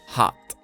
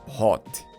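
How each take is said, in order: First: The vowel sounds like an open 'ah'. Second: The vowel sounds like a rounded 'oh'. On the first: The speaker calls it right. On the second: The speaker calls it wrong. "Not hot"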